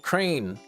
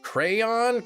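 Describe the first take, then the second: First: The word is said with one syllable. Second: The word is said with two syllables. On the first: "or crane?" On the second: "Crayon, crayon, or crane?"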